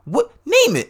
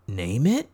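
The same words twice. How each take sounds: First: High, loud incredulous echo; mock-outraged squawk of the suggestion; appalled disbelief. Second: Earnest, tentative question, lifting at the end; innocently sincere retold line; sincere suggestion. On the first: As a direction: throw it back, pitched way up in disbelief. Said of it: "because she's so like". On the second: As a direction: offer it in complete sincerity, as a real question. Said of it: "in complete sincerity".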